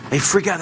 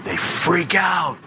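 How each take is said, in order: First: Said in the usual way. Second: Slow mock freak-out. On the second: Shown as a demonstration.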